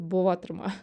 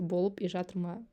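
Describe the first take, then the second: First: The words run together into one reduced word. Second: The words are said separately and fully. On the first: "люди даже это вместе просто" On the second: "Я пытаюсь еще отдельно"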